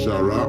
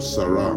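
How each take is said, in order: First: The word begins with a sh sound. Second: The word begins with an s sound. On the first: "the sh is also s" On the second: "like Sarah"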